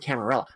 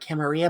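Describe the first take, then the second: First: It is pronounced the English way. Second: It is pronounced the Spanish way. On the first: This is the word as English speakers adapted it. "we take other languages' words out into a back alley and beat the crap out of them" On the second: This is the word as the original language has it. "you get double L's in what is it, Spanish, and it's like Camarilla"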